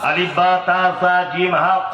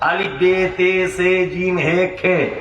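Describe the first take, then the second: First: The letter names end in an 'a' sound. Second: The letter names end in an 'e' sound. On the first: This is the current way of reciting. "এখন বা তা হয়েছে" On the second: This is the older way of reciting. "আগে বেতে ছিল"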